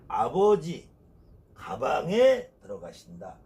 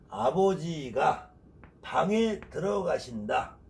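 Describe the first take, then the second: First: The break comes after 'abeoji', before 'gabang'. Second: The break comes after 'abeojiga', before 'bang'. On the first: Father goes into the bag. The speaker calls it wrong. "뜻이 완벽하게 달라진다는 거예요" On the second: Father goes into the room. The speaker calls it right. "이렇게 읽어야 될 것을"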